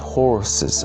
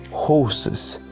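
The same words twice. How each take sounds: First: The R sound is clearly pronounced. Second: The R sound is not pronounced. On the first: "Americans say it horses. they pronounce the letter R" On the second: "It's horses"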